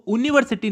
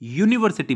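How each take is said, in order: First: The word begins with a plain vowel sound. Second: The word begins with a y sound. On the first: The speaker calls it wrong. "हम इसको यूनिवर्सिटी नहीं" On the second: The speaker calls it right. "यूनिवर्सिटी बोलते हैं, इसलिए ये यू यानी कि व्यंजन है"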